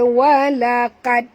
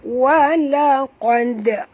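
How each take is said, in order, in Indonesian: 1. Bunyi q ringan, seperti k. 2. Bunyi q berat dan dalam. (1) "Jangan baca walaqad" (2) "Tebal huruf qaf"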